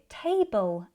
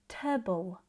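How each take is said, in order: First: The vowel is pronounced full and clear. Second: The vowel is reduced to a schwa. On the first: The speaker calls it wrong. "a clear table ending" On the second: The speaker calls it right. "it sounds more like table"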